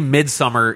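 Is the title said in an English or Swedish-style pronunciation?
English. The title is said with a plain English pronunciation. The speaker says it the ordinary way. The speaker calls it right. "Just say Midsommar"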